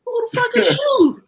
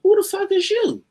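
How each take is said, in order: First: Higher and louder incredulous shout; mock outraged shout. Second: High, loud incredulous yell; shouted loud as an offended star; mock outraged yell. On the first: A comic retelling the headliner's shouted brush-off. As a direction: bellow it like an offended star. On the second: A comic quoting the headliner's loud outraged yell. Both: Collier barks at unrecognized comedian.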